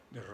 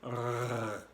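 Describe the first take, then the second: First: "R" trilled with the tongue tip; "R" as a front-of-mouth trill; Spanish tongue-trilled R. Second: "R" gargled from the back of the throat; "R" scraped in the throat, tongue tip still; French throat R. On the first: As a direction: roll a short Spanish "R" on the tongue. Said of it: "como en español con la lengua". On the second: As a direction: hold a long guttural "R". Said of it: "viene del fondo de la garganta". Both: Shown as a demonstration.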